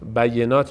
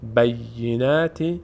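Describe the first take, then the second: First: The word ends without a final 'ee' vowel. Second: The word ends with a final 'ee' vowel. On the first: The speaker calls it wrong. "خیلی از عزیزان حواسشون نیست. بینات بینات بینات میخونن" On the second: The speaker calls it right. "بینتی دو تا یا هست"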